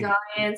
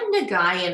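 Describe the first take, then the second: First: The name is said with two syllables. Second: The name is said with three syllables. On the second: "I get Nagayan a lot"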